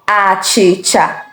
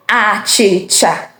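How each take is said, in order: Both takes have the same delivery.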